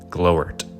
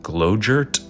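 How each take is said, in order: First: The middle consonant is left silent. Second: The middle consonant is clearly pronounced.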